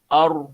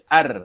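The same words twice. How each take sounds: First: The r is pronounced heavy and full. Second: The r is pronounced light and thin. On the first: The speaker calls it right. "nampak tebal" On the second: The speaker calls it wrong. "Jangan baca ar"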